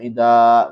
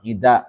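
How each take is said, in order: First: The final vowel is drawn out long. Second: The final vowel is kept short. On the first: The speaker calls it wrong. "bukan dibaca ida begitu" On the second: The speaker calls it right. "dengan dibaca qasar"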